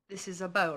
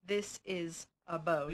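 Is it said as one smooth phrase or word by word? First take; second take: smooth phrase; word by word. First: All words are said together, without any breaks. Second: Each word is said separately, with breaks between. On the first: The speaker calls it right. "you can say this is a bowl, as we would say it" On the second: The speaker calls it wrong. "instead of saying this is a bowl"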